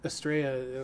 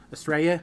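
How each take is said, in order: First: Said in the usual way. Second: "Estrella?" said like "Australia" in an Australian accent; "Estrella?" with an Australian accent and a rising end. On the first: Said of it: "pretty soon it'll sound like I'm saying Australia". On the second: Shown as a demonstration. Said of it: "sound like I'm saying Australia in an Australian accent".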